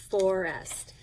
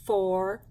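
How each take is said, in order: First: Said in the usual way. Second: "Forest." broken into "for... est" with a clear gap; split into syllables. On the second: Shown as a demonstration. Teacher showing pupils the two syllables, word split apart. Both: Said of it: "Two syllables".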